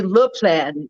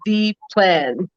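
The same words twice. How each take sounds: First: "le plan" said with French "le"; French article. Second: Said in the usual way. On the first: Shown as a demonstration. Explaining what the French would say, French article in "le plan". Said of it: "the French would be le plan". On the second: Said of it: "not the plan".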